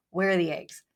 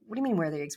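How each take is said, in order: First: Husband's annoyed question, flat and pointed; mildly irritated, demanding the eggs; perturbed. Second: Confused echo. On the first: Husband in the kitchen asks for missing eggs, mildly annoyed. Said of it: "a little bit perturbed". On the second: Wife echoes husband's question back, puzzled and a touch defensive. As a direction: repeat his question, baffled. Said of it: "Like, "I don't know". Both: Retold or imitated.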